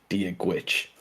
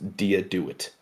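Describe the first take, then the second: First: The second word starts with a G-like sound. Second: The second word starts with a hard D sound. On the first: The speaker calls it right. "It's pronounced with a G sound for gwitch" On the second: The speaker calls it wrong. "you're probably thinking to yourself, "Oh, that's pronounced dia do it," and it's not"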